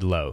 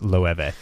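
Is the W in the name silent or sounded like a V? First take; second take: silent; V sound. First: The name sounds like low, with no V. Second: The name has a V sound after the vowel. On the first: The speaker calls it wrong. "I said low for a while" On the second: The speaker calls it right. "it's that European pronunciation of the W as a V"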